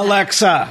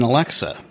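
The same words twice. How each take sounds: First: The word is screamed very loudly. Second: The word is said at normal speaking volume.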